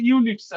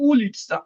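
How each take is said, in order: First: ইউলিৎসা said with a "yu" glide at the start; English-style misreading. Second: উলিৎসা opening on a pure "oo"; correct Russian pronunciation. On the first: Teacher showing students the English-based misreading, ইউলিৎসা starting with "yu". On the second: Teacher correcting the students' misreading, উলিৎসা begun with a pure "oo". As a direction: say উলিৎসা with "oo", no y-glide. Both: Shown as a demonstration. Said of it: "এটা ইউলিৎসা না".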